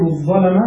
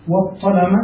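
First: الظلم said with a doubled ẓ; the first accepted variant of الظلم; doubled ẓ version. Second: والظلم said with a doubled ṭ; the second accepted variant of الظلم; doubled ṭ version. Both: Shown as a demonstration. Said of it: "فلا بأس".

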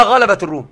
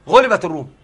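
First: غلبت read ghalabat, fatha on the ghayn; active reading. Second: غلبت read ghulibat, damma on the ghayn; passive reading. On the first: Teacher to students rejecting the reading ghalabat. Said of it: "ما غلبت الروم". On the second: Teacher telling students the agreed reading, ghulibat. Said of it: "قرأوها غلبت الروم". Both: Shown as a demonstration.

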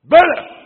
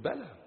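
First: High, very loud burst; thundering affirmation. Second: Soft, restrained answer; quiet affirmation. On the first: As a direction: shout it as an emphatic answer. (تأكيد بصيحة عالية) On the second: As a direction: answer it under your voice. (تأكيد هادئ خافت) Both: Real, not acted. Same word, soft then shouted.

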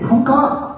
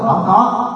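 First: "Không có" tossed off high and scornful; scornful high-pitched "Không có" mocking the congregation. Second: Said in the usual way. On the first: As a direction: squeak "Không có" up high in mock disbelief. Mocking answer to own question.

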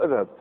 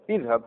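First: اذهب said "adhhab"; fatha on hamza. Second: اذهب said "idhhab"; kasra on hamza. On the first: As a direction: open اذهب on an "a" sound. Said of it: "ما كاينش فتحه". (اذهب بهمزة مفتوحة) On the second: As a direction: open اذهب on an "i" sound. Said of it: "تكسرها". (اذهب بهمزة مكسورة) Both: Shown as a demonstration.

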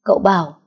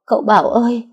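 First: Said in the usual way. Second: Anguished cry. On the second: Acted. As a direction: call out to him in panic. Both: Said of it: "liền lắp bắp nói".

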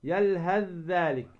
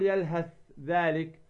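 First: "يلهث ذلك" as "yalhadh-dhalik"; merged recitation. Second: "يلهث ذلك" with ث sounded: "yalhath, dhalik"; unmerged mistake. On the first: Teacher corrects the reading, merged ث into ذ. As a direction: turn ث of يلهث into a doubled ذ. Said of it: "فتدغم الثاء في الذال". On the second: Teacher shows what not to say, unmerged ث. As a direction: keep the ث of يلهث apart from ذلك. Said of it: "ما تقول". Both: Shown as a demonstration.

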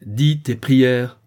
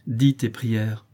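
First: Slow, loud, fearsome command; terrible voice. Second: Restrained firm order; stern command. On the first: Father repeating the order to his begging son, terrible. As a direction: thunder it out slowly, word by word. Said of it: "d'une voix terrible". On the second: Father ordering his kneeling son to pray, stern. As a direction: order it firmly without shouting. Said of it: "répéta Matteo". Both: A narrator's reading.

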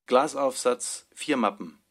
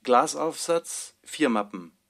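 The two takes are said the same way.

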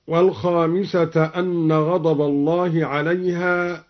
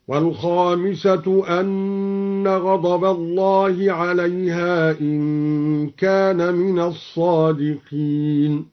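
First: Said in the usual way. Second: Slow chant, والخامسة ending in "-tu"; drawn-out recitation, u on the end of والخامسة; recited with raf'. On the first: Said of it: "قرأ الدوري بالرفع". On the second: Shown as a demonstration. Teacher demonstrates al-Duri's reading, slowly chanting والخامسة as "wal-khamisatu". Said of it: "قرأ الدوري بالرفع على الابتداء".

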